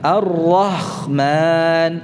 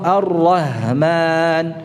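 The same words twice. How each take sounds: First: The middle consonant is a rough scraping kh. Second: The middle consonant is a light breathy h. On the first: "menjadi kha" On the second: "atau ha"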